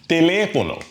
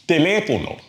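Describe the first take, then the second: First: The stress is on the second syllable. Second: The stress is on the second syllable.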